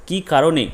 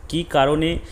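The two takes are said the same way.

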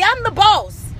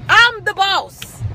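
First: Said in the usual way. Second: Each word slow and spaced; slow, firm declaration; slow emphatic. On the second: Acted. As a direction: drag out I'm the boss deliberately. Repeating the boss line, slowed.

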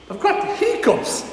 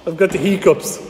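First: Laughing while admitting it; giggly admission with a laugh. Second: Said in the usual way. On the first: Real, not acted.

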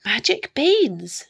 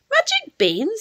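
First: Raised, excited cry, falling on BEANS; thrilled little burst, pitched up; delighted exclamation. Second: Put-on high questioning young Jack; wondering high-pitched question on BEANS; surprised boy. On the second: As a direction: query the beans in a high, amazed voice. Jack asks about the beans. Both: A narrator's reading.

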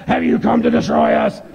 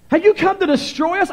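First: Harsh demonic growl; monstrous possessed voice, well below a screech. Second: High-pitched reading of the evil spirit's cry; raised, high scripture-reading voice. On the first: Acted. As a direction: growl it like an evil spirit. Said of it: "here's how some of them sound". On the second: A narrator's reading. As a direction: cry it out high, without the monster growl. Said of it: "evil spirit cried out".

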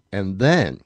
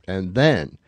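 Both takes have the same delivery.

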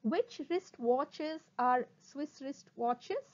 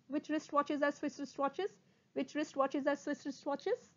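First: Slow, separated words, rising end; slow tongue twister. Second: Quick, even repeats, rising end; sped-up tongue twister. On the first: Teacher introduces a twister to students, slowly. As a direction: space out each word. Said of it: "first try saying them slowly". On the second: Teacher speeds up the twister for students, quickly. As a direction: run the words together. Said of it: "speed up". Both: Shown as a demonstration.

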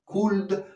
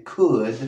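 First: "Could" with a sounded L; L pronounced. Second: "could" with no L sound; silent L. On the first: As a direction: say "Could" wrongly, L heard before the D. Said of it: "no se dice". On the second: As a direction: say "could" as "cud", rhyming with good. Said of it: "se dice could". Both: Shown as a demonstration.

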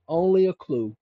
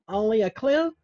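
First: Said in the usual way. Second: High, doubtful Only a clue? rising at the end; lightly voiced doubter rising on clue; skeptical listener. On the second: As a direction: needle him as a doubting viewer. Imagined listener questions the claim.

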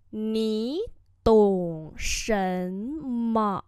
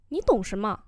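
First: Ní tổng shen me stretched slowly; slow it down so they hear each tone; slow teacher demo; very slow model. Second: Said in the usual way. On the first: Shown as a demonstration. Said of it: "slow model repeat". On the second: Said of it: "slow repeat follows".

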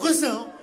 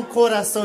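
First: "Coração" squashed short, first vowels dropped; swallowed vowels. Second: Said in the usual way. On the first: Shown as a demonstration. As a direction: say "Coração" like a Portuguese, roughly "cr'ção". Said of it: "eles falam". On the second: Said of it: "eles não falam coração".

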